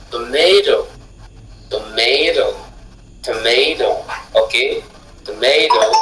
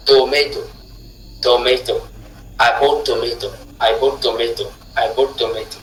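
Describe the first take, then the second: First: Tomato with the middle syllable ma stressed, rising then falling; correct word stress. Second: Tomato and I bought tomato said flat, no syllable stressed; faulty tomato, stress in the wrong place. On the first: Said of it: "lorsque vous tenez compte de la position du stress". (tomato accentué sur ma) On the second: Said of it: "Une personne qui ne sait pas prononcer dira". (mauvaise accentuation de tomato) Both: Shown as a demonstration.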